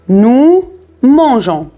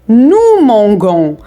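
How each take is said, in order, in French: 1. Le g se prononce doux, comme le s dans measure. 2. Le g se prononce dur, comme dans go. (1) "pour prononcer nous mangeons, on doit ajouter la lettre e" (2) "s'il n'y a pas e, on va prononcer"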